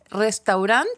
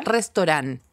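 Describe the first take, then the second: First: Restaurant said "res-tau-RANT", AU sounded, pitch rising. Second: Restaurant said "res-to-RAN", O for AU, falling; restaurant as "restorán". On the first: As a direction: say restaurant as spelt, with a full "au". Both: Shown as a demonstration. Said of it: "las tres formas de decirlo".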